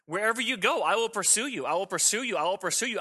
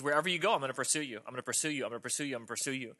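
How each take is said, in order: First: Raised pitch, driving repetition; insistent vow of God. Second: Soft mother bunny. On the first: Preacher voices God pursuing the runaway sinner, higher and insistent. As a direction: hammer the promise with conviction, pitched up. God's vow, like mother bunny. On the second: Mother bunny repeats her promise. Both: Acted.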